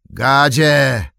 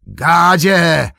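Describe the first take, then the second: First: Loud, higher summoning call. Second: Much higher, very loud shout; louder call. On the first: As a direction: bark for his servant. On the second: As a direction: yell the name across the yard. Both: Acted. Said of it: "zawołał Saruman".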